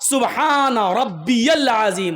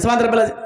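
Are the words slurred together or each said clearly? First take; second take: clear; slurred. First: Each word is pronounced clearly and distinctly. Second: The words are slurred together, not clearly separated. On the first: The speaker calls it right. "एक एक जुमला साफ, एक एक लफ्ज साफ" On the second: The speaker calls it wrong. "ऐसे नहीं"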